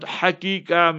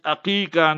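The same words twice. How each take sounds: First: The word begins with a breathy h sound. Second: The word begins with a throaty ayn sound. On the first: The speaker calls it wrong. "Many times people pronounce it incorrectly. They write with the H" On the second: The speaker calls it right. "Haqiqa, with the Ayn"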